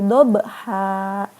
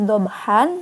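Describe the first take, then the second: First: The word ends with a long vowel. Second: The word ends with an n sound. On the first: The reader stops at this word. "dibacanya jadi wal adiyati dobha ... dibacanya panjang, dua harokat" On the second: The reading continues without stopping. "Ada bacaannya wal adiyati dobhan"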